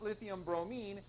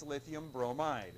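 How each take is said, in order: First: Bromine with an "-een" ending, pitched up; wrong name ending. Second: Bromide with an "-ide" ending, falling; correct name ending. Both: Shown as a demonstration. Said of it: "It's not lithium bromine".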